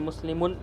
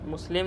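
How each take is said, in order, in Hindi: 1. शब्द के अंत में सुनाई देने वाला -un लगा है। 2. शब्द सादा खत्म होता है, इसमें -un नहीं है। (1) "मुस्लिमुन ये बोलना ज़रूरी है" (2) "मुस्लिम नहीं"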